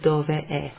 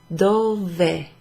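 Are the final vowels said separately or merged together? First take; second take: separate; merged. First: The final vowels are said as separate syllables. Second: The final vowels merge into one syllable. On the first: "instead of dove è" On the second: "pronounced as if it's kind of one word"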